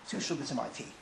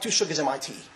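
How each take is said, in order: First: It is spoken in a whisper. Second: It is spoken in a normal full voice. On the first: It is meant to be kept secret. "whispered into your ear" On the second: It is harmless and may be repeated. "he didn't just say it like that"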